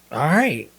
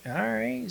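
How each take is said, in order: First: Louder, falling, settled reply; decided retold acceptance. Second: Soft, very high, rising reply; tentative retold acceptance. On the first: Husband resolves to follow wife's example, decided. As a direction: accept it firmly, landing downward. Second retold reaction, after hearing all. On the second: Husband reacts to wife's surprising yes, tentatively. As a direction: accept it in a small, high, questioning voice.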